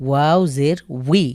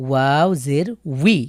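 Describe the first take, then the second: The two takes are said the same way.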